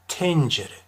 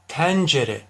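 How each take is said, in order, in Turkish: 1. E sesi kapalı söylenir. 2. E sesi açık söylenir.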